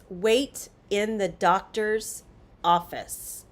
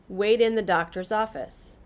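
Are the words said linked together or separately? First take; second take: separately; linked. First: Each word is said separately, with a clear T. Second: The words run together; the T sounds like D. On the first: "if we take the sentence" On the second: "when we link the words together in connected speech"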